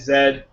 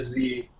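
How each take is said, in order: First: The letter is said the British way. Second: The letter is said the American way. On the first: "in uh, British English" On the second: "They don't do in American English"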